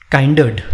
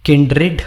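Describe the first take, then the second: First: काइंडर्ड said with a long "kai" vowel; काइंडर्ड with "kai" as in kind; common mispronunciation. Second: किंडरेड, short i, not "rad"; correct pronunciation. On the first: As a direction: read काइंडर्ड as KAIN-derd. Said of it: "काइंडरेड कुछ लोग बोलते हैं". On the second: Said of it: "किंडरेड बोला जाता है, रड नहीं". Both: Shown as a demonstration.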